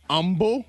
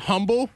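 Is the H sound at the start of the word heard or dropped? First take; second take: dropped; heard. First: The word starts without any H sound. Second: The word starts with an audible H sound. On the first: The speaker calls it wrong. "You just can't hear the H sound anymore" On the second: The speaker calls it right. "instead of saying humble"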